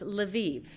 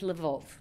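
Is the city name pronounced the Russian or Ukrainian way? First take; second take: Ukrainian; Russian. First: The name has the Ukrainian pronunciation. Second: The name has the Russian pronunciation. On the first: "Ukrainian, it is pronounced Lviv" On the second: "In Russian, it is Lvov"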